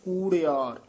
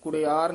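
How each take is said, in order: First: The first vowel is long. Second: The first vowel is short. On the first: The speaker calls it right. "ਥੋੜੇ ਦੀਰਘ ਲਾ ਕੇ ਉਚਾਰਨ ਕਰਨਾ ਹੈ" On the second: The speaker calls it wrong. "ਕੁੜਿਆਰ ਨਹੀਂ ਕਹਿਣਾ"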